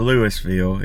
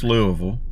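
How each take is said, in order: First: It is said a non-local way. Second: It is said the local Kentucky way. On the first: The speaker calls it wrong. "or Louisville" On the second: The speaker calls it right. "it's Louisville"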